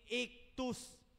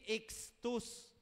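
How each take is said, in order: First: The middle consonant is said like a plain k. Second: The middle consonant is said like an x. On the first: The speaker calls it right. "yung C H na ang sounds ay ki" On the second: The speaker calls it wrong. "hindi po yan basa ay X"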